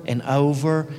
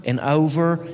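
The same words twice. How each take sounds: The two takes are said the same way.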